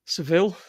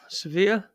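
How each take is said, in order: First: "Seville" said as se-VILL, ending on a clear L; the English way, "Seville" with a hard final L. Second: "Sevilla" said se-VEE-ya, no L sound at the end; Spanish Sevilla. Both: Shown as a demonstration. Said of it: "That's what they call it".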